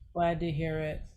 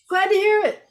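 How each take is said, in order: First: It is said flat, in a monotone. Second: It is said with lots of tone.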